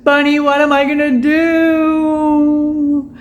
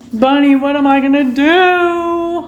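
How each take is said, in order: First: Very slow, higher, half-crying plea; mock crying. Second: Slow, higher, whiny plea to Bunny; mock whine. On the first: To Bunny over the broken cup, a mock sob. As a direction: sob the question to the pet in jest. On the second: Asking Bunny for help with a hammed-up whine. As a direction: beg the pet for help, pouting. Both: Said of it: "I am so sad".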